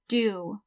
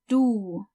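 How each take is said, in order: First: The vowel is the English do sound. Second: The vowel is the German u sound. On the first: The speaker calls it wrong. "as in to do something" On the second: The speaker calls it right. "du is not pronounced do"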